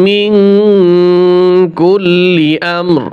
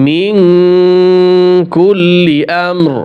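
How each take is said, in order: The two takes are said the same way.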